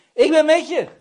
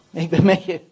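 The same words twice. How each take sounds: First: High, loud proclamation; ringing, emphatic cry of reassurance; shouted assurance. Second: Low, loud, firm promise; weighty, forceful reassurance; firm assurance. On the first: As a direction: shout the promise out. God's answer repeated as a shout. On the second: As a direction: state it solidly and low. God's answer, first firm take. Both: Acted.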